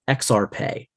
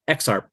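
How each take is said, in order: First: The word is pronounced with a Latin-like sound. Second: The word is pronounced just as it is written. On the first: This follows the other school of pronunciation. "sounds more Latin when you read it" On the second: This follows one school of pronunciation. "said exactly like it's written"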